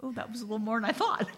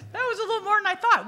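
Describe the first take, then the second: First: Said in the usual way. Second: High and louder, laughing through it, fast. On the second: Real, not acted. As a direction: laugh the line out in disbelief.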